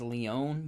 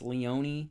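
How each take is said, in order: First: The final E is silent. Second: The final E is pronounced. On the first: The speaker calls it wrong. "I thought his last name was Leone, I thought the E was silent" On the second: The speaker calls it right. "but apparently it's Leone, but it's not"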